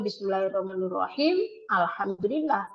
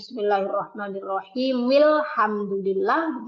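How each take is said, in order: First: The phrase stops briefly before the next word. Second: The ending runs straight into the next word. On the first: The speaker calls it wrong. "tidak boleh" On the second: The speaker calls it right.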